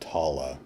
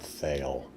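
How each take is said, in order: First: The name ends with an open 'ah' vowel. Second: The name ends without an open 'ah' vowel. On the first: The speaker calls it right. "it's pronounced Tala" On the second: The speaker calls it wrong. "not Thale"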